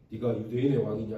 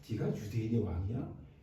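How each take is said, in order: First: It is asked as a plain question. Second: It is asked in a sneering, mocking tone.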